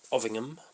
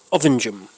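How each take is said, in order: First: The g is said as a hard g. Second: The g is said soft, like in orange. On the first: This is how an outsider would say it. "I would pronounce it Ovingham" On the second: This is how the locals say it. "they pronounce it around here Ovingham"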